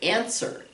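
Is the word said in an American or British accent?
American. The first vowel is American, a flat 'eh'. "But in American English, we say answer"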